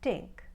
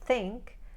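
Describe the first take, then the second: First: It starts with a hard T sound. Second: It starts with a soft TH sound.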